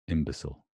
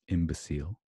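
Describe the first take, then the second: First: It is said with an American accent. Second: It is said with a British accent. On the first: "Americans would probably say imbecile" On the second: "I would say imbecile"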